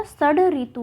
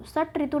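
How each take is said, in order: First: षड ऋतु, retroflex d before ri; d, not t, in षड ऋतु; correct form षड ऋतु. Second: षट ऋतु, voiceless retroflex t before ri; the mistaken t in षट ऋतु; wrong form षट ऋतु. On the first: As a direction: say षड ऋतु with voiced d. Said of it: "ट का प्रयोग ना होके ड". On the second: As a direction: say षट ऋतु with hard t. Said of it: "षट ऋतु नहीं होता". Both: Shown as a demonstration.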